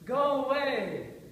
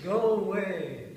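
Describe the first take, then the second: First: It is said at a higher pitch. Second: It is said at a lower pitch.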